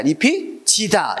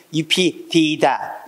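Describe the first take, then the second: First: 잎이 지다 read slowly with 지 in place of 디; palatalized reading. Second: 잎이 디다 read slowly with a hard 디; old spelling read out. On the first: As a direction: say 지다 clearly and slowly as the right reading. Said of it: "이게 아니라 시다". (잎이 지다를 느리게 지로 발음) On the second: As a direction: sound out 디 deliberately, as the wrong reading. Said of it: "이게 아니라". (잎이 디다를 느리게 디로 발음) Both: Shown as a demonstration.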